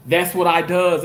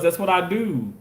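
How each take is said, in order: First: "does" said as a jokey slip, That's what I does; playful wrong grammar. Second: Said in the usual way. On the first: Shown as a demonstration. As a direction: drop "does" in lightly on purpose, as a fake slip.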